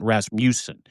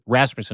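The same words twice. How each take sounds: First: The middle syllable is fully and carefully pronounced. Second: The middle syllable is reduced and quick. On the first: The speaker calls it wrong. "not Rasmussen. You don't have to overcook it" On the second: The speaker calls it right. "you get lazy in the middle of the last name a little bit"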